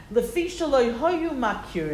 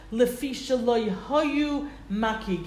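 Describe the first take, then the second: First: "makir" re-read with an r at the end; re-read the word as "makir", ending on r; corrected reading. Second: "makig" said with a hard g at the end; first reading ending "makig" with a g sound; misread word. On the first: Teacher re-reading the Hebrew to correct "makir". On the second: Teacher reading the Hebrew aloud, first saying "makig". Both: Shown as a demonstration.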